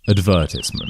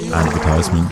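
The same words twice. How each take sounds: First: It is said in a British accent. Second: It is said in an American accent. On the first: "This is just how I would say it in my accent" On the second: "which is the American version"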